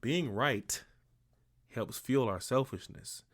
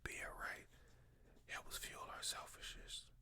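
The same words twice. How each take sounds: First: It is said loudly. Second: It is said quietly.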